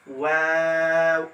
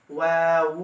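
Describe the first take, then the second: First: ওয়াও slow with rounded lips at the end; Arabic letter waw. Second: ওয়াউ ending in a flat u; wrong waw. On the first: Teacher giving the correct rounded ওয়াও. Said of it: "টুকটা গোল করবেন". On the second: Teacher showing the wrong ওয়াউ. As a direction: say ওয়াউ with the wrong closing sound. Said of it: "এটা বলবেন না". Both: Shown as a demonstration.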